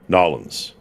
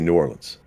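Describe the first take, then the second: First: The name is said the local New Orleans way. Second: The name is said the standard outsider way.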